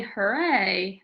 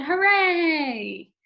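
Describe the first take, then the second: First: Said in the usual way. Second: "hooray" high, loud and stretched long; exclaimed cheer. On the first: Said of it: "I didn't say hooray". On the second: Shown as a demonstration. Teacher showing how "hooray" was said, cheering. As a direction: belt out "hooray" as a drawn-out cheer. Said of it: "I said hooray".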